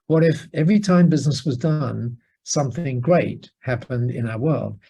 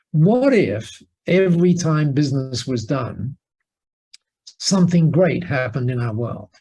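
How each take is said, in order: First: Said in the usual way. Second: Weighty what-if question. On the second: Retold or imitated. Poses the big question slowly.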